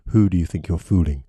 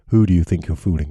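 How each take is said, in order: No difference in how they are said.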